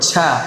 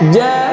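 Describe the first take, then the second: First: The consonant is pressed hard, releasing a burst of air. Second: The consonant is touched lightly, with no air burst. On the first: The speaker calls it wrong. "ঝা এরকম না" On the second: The speaker calls it right. "হালকা ভাবে লাগাবে"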